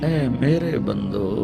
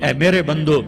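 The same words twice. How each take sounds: First: It is said in a sweet, loving tone. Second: It is said in a plain, unaffectionate tone. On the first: The speaker calls it right. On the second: The speaker calls it wrong.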